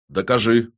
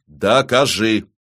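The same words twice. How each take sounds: First: Quick, contained order to prove it; curt demand. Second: Slow, heavily weighted order to prove it; insistent demand. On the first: Client doubting the artist's promise, curt demand. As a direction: demand proof in one short word. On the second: Client cutting off the artist's assurances, insistent demand. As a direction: draw the word out as an ultimatum. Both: A narrator's reading.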